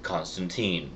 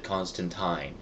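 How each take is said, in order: First: Put-on Constantine with last syllable like "teen"; pronounced con-stan-TEEN. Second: Constantine with last syllable like "tine"; pronounced con-stan-TINE. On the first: Shown as a demonstration. Giving everybody else's version from the movie, Constantine with "-teen". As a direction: say Constantine to rhyme with seen. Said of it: "Everybody else in the movie ... pronounces". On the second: Retold or imitated. Quoting the one guy in the extras, Constantine with "-tyne". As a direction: say Constantine to rhyme with mine. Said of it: "who pronounces it Constantine".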